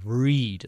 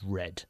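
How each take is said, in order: First: The vowel is long, like in 'reed'. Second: The vowel is short, like in 'red'. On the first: It is the base form of the verb. "The second time, it is the infinitive" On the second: It is the past tense of the verb. "And the past is read"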